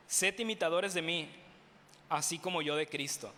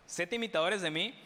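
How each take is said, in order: First: Said in the usual way. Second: Lightly mocking, a touch smug. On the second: Shown as a demonstration. Preacher repeats the verse to the congregation in mild mockery. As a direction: tease the words a little, half-joking. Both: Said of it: "Lo digo en tono de burla".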